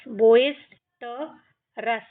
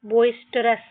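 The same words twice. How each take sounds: First: बोइस्टरस split into बोइस, ट, रस; syllable by syllable. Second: Said in the usual way. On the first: Shown as a demonstration. Teacher shows how to read without Hindi, बोइस्टरस in pieces. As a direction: break up बोइस्टरस with pauses. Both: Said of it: "आपको इस तरीके से इनको पढ़ना है".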